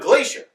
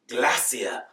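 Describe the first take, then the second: First: It is said with an American pronunciation. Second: It is said with an English pronunciation.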